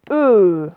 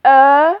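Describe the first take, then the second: First: E fermé, bouche toute ronde, tenu; son E fermé. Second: E ouvert, bouche bien ouverte, appuyé fort; son E ouvert. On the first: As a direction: dire le E fermé comme dans nœud, allongé. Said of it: "le E fermé". (E fermé, fort et allongé) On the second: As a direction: dire le E ouvert comme dans œuf, tenu. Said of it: "le E ouvert". (E ouvert, fort et allongé) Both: Shown as a demonstration.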